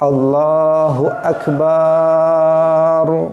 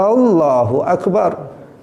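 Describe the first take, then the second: First: The ba syllable is drawn out long. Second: The first a sound is drawn out long. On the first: It says God is big drums. "dipanjangkan baknya" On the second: It questions whether God is great. "dipanjangkan hamzahnya"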